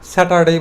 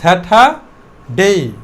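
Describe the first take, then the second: First: The r sound after the second vowel is pronounced. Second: The r sound after the second vowel is silent. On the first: "প্রিভিয়াসে উচ্চারণ কী করতাম, স্যাটারডে বলতাম" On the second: "তাহলে আটা অবশ্যই silent থাকবে"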